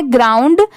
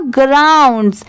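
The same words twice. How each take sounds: First: "ग्राउंड" with a bare D ending; ground without S. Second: "ग्राउंड्स" with a clear S at the end; final S sounded. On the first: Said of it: "तो इतना क्या होता है?". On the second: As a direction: finish "ग्राउंड्स" on an audible S. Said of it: "एस लगा है". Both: Shown as a demonstration.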